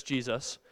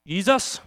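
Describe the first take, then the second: First: Said in the usual way. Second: "Jesus" with a Y for the J, "Yeesus"; toddler's mispronunciation. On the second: Retold or imitated. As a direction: say "Jesus" as a small child does, "Yee-zus". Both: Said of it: "That's how he says Jesus".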